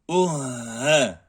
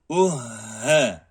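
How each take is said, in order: Both takes have the same delivery.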